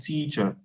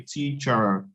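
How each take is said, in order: First: The final R sound is dropped. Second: The final R sound is pronounced. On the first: The speaker calls it right. "they would say teacher" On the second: The speaker calls it wrong. "British people would not pronounce the, r- they wouldn't say teacher"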